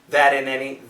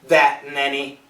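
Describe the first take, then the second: First: The T in that is a quick flap. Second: The T in that is a glottal stop. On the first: "Or we could have a flat T" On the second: "We could have a glottal stop"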